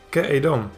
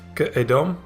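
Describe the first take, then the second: First: The prefix has a full 'e' vowel. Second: The prefix has a short reduced schwa vowel. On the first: "admittedly a relatively small change in pronunciation" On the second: "put that one in the place of the schwa under the preposition"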